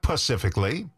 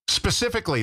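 First: The word begins with a P sound. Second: The word begins with an S sound. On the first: The speaker calls it wrong. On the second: The speaker calls it right.

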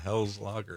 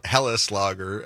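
First: The name is said with plain English pronunciation. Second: The name is said with German pronunciation.

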